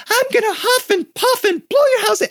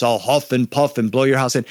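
First: Very high, squeaky comic wolf; surprising, playful high-pitched wolf; silly wolf voice. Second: Lightly voiced big bad wolf; a hint of a big storybook wolf; understated big wolf voice. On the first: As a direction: squeal the threat in a tiny falsetto. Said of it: "sometimes the wolf is really". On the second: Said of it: "my wolf has my really big voice". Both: Shown as a demonstration.

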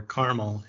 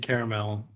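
First: "caramel" squeezed into two syllables, CAR-mul; alternative pronunciation. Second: Said in the usual way. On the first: Shown as a demonstration. Host offering the other way to say it, "caramel" as two-syllable "carmel". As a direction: say "caramel" as "carmel", dropping the middle vowel. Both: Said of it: "if you wanna say it that way".

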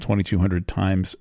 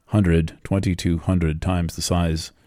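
First: Said in the usual way. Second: "twenty-two hundred" spaced out more slowly. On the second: Shown as a demonstration. Astrologer repeating a huge figure for listeners, more slowly. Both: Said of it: "I'll say that more slowly".

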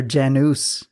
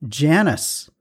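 First: "Janus" with an oo in the ending, JAN-oos; alternative pronunciation. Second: "Janus" said like the name Janice; uncertain pronunciation. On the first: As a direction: offer "Janus" with a rounded second vowel. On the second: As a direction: say "Janus" with a short first a, JAN-us. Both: Real, not acted. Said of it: "I don't know how it's pronounced".

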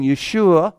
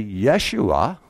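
First: Yeshua with the usual stress; first try. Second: Yeshua with the stress moved, lower and slower; shifted stress. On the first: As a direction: Yeshua said the ordinary way. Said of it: "if I say that word and I change the emphasis on the syllables". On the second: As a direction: say Yeshua as YE-shua, stress on the first syllable. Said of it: "I change the emphasis on the syllables". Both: Shown as a demonstration.

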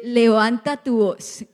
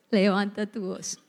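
First: Slow, emphatic urging; raised voice. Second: Said in the usual way. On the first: Shown as a demonstration. Preacher has neighbours tell each other, slow raised urging. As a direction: urge them to speak up, slowly.

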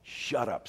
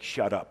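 First: Low-key stern command, softly spoken. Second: Said in the usual way. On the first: Acted. Jesus to the demon, stern and quiet. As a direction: order it quietly and firmly. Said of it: "said Jesus sternly". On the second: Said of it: "we don't say mean words like".

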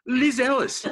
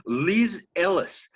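First: Higher and louder, calling her out; called out. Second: Said in the usual way. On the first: Acted. Calling out Liz Ellis, louder and higher. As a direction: call her name out across the room.

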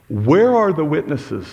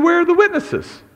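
First: Said in the usual way. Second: Much higher, pressing demand; preacher retelling Jesus confronting the council, indignant and high. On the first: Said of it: "He literally says". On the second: Retold or imitated. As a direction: challenge them, higher and sharper. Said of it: "gets punched in the face for asking".

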